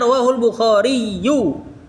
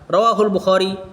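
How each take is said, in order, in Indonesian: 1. Namanya berakhir dengan akhiran '-iyu' penuh. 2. Namanya berakhir terpotong, tanpa vokal di akhir. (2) "Cuman kan biasa dibaca sukun orang"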